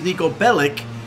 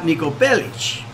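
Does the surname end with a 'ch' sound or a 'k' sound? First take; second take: k sound; ch sound. First: The surname ends with a hard k sound. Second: The surname ends with a ch sound. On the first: This is how the name is said in the game. "in this game he was Niko Bellic" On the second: This is how a Serbian surname would be said. "and not Niko Bellic"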